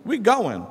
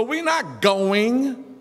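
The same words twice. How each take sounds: First: "going" said without the final g sound, as goin'; dropped final consonant. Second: "going" said without the final g sound; "going" as goin'; dropped final consonant. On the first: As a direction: clip the end of "going". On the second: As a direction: drop the last consonant of "going". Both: Shown as a demonstration. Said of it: "in our African rules".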